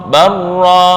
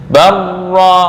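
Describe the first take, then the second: The two takes are said the same way.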